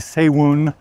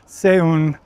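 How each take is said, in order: First: A w sound glides between the two vowels. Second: The two vowels join with no w sound. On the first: The speaker calls it wrong. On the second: The speaker calls it right.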